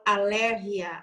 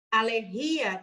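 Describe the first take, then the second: First: "alergia" stressed on LER, a-LER-gia, with Spanish g like h; Spanish pronunciation. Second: "Alergia" stressed on the i, a-ler-GÍ-a; incorrect pronunciation. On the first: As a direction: hit LER in "alergia", short final gia. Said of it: "no espanhol eu falo". ("alergia" em espanhol, com a tônica em LER) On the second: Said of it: "tá incorreto". ("Alergia" errado, com a tônica no i) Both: Shown as a demonstration.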